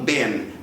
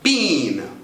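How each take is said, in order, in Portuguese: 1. É dito com pronúncia americana. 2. É dito com pronúncia britânica. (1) "os americanos às vezes trocam a vogal e mandam been" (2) "Na pronúncia inglesa, com essa vogal mesmo"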